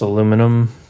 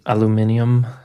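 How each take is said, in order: First: The word is said with four syllables. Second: The word is said with five syllables.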